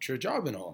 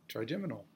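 First: The word is said with standard English sounds. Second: The word is said with French-influenced sounds. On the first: The speaker calls it right. "no, it's the trigeminal" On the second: The speaker calls it wrong. "I said it wrong. So I get this French mix up"

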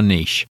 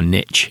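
First: It is said in a non-American way. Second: It is said in an American way.

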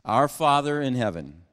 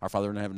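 First: It is said slowly with pauses. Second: It is rushed through very fast.

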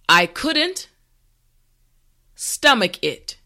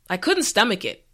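First: The sentence is said slowly and carefully. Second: The sentence is said at a natural speed. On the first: "this time repeat after me" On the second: "the last time at a regular pace"

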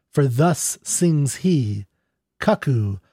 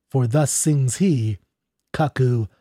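Both takes have the same delivery.

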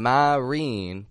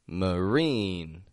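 First: The first syllable has a full, clear vowel. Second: The first syllable has a reduced schwa vowel. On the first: The speaker calls it wrong. "Notice I'm not saying marine" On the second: The speaker calls it right. "but marine"

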